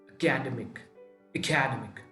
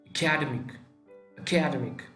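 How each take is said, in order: No difference in how they are said.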